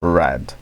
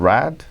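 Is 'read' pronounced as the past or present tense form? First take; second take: past; past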